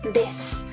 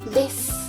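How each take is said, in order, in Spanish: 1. La vocal final u se omite, terminando en s. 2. La vocal final u se omite, terminando en s.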